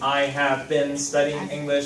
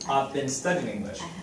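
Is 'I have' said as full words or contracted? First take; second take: full; contracted. First: I have is said as two full words. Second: I have is contracted into one short syllable. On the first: The speaker calls it wrong. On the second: The speaker calls it right.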